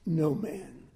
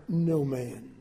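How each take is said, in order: Both takes have the same delivery.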